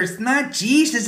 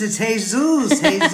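First: Put-on kids say "Jesus" the English way, JEE-zus, high and laughing. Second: "Jesus" said hay-SOOS, high and laughing; "Jesus" the Spanish way, hay-SOOS, high kid voice; Spanish Jesús. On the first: Kids mock the teacher's English "Jesus", high and laughing. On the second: Retold or imitated. Kids teach the teacher Spanish "Jesus", hay-SOOS, laughing. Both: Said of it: "all the kids started laughing".

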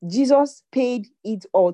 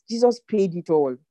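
First: Higher, louder proclamation of Jesus; louder triumphant declaration; rising proclamation. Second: Steady firm declaration; firm assurance; declared. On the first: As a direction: lift it up and proclaim it. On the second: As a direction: state it firmly. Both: Shown as a demonstration. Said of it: "Tell yourself".

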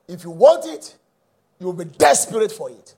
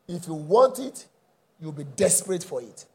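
First: "desperate" hit hard and loud; stress on "desperate". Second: Said in the usual way. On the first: Real, not acted. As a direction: punch "want" and "desperate" with preacher's force. Repeats the line with force.

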